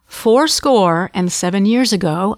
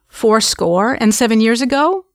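First: The voice falls at the end. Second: The voice rises at the end. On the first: The speaker states it with confidence. "listen to my inflections. They go down at the end" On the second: The speaker sounds unsure, as if asking. "if I'm up-talking, the Gettysburg Address would sound like this"

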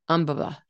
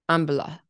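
First: All syllables get equal, even stress. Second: The same.

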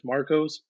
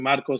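First: The name is said with English pronunciation. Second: The name is said with Spanish pronunciation. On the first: "if you don't speak Spanish" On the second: "If someone who speaks Spanish comes up to me"

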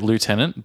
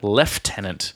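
First: It is said without an f sound. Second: It is said with an f sound. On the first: The speaker calls it right. "Americans say it lieutenant" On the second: The speaker calls it wrong. "but Brits say it"

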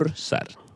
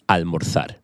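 First: The z is sounded like s. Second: The z is sounded like th, as in Spain.

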